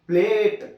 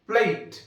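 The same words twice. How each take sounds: First: The vowel is one steady long sound. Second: The vowel glides from an e towards ee. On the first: The speaker calls it wrong. "It's not ప్లేట్" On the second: The speaker calls it right. "ఏ plus ఈ రెండు శబ్దాలను కలిపి పలికితే ప్లేట్ అంటాం"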